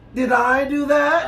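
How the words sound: It is said in an Urkel impression.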